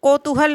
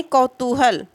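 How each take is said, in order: First: कौतूहल with a plain O, ko-tuhal; higher, open कौतूहल with o instead of au; wrong first vowel. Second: कौतूहल with AU, kau-tuhal; correct first vowel. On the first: Teacher showing the form to reject, कौतूहल starting ko. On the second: Teacher giving the correct form, कौतूहल starting kau. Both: Shown as a demonstration. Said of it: "कौतूहल नहीं".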